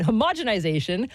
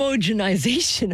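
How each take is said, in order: First: "homogenization" as huh-MOJ-en-ih-ZAY-shun; corrected ho-MOJ-enization. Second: "homogenization" as HOH-moh-jen-ih-ZAY-shun; careful homo-genization. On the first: Host correcting himself, homogenization as huh-MOJ-enization. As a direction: say "homogenization" with MOJ stressed, rising at the end. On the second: Host retrying after stumbling, homogenization as HOH-moh-jenization. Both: Real, not acted. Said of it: "today is not my day".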